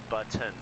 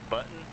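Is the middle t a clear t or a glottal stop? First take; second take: clear t; glottal stop. First: The middle t is a clear t. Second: The middle t is a glottal stop. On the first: The speaker calls it right. "but it should be button" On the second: The speaker calls it wrong. "I say it with, I guess, a glottal stop"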